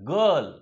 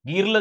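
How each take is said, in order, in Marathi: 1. हा स्वर लहान "uh" सारखा आहे. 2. हा स्वर "see" मधील ee सारखा आहे. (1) "फक्त अ" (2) "गिरलं झालं का? नाही"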